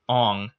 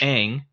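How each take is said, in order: First: The name has a Mandarin-style pronunciation. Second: The name has an anglicized pronunciation. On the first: This is how the name would actually be said. "in Mandarin or whatever thing, it's Ong" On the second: This is how the cartoon says it. "in the cartoons it's Aang"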